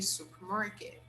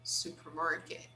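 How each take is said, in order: First: It is said with the R sound. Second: It is said with the R sound.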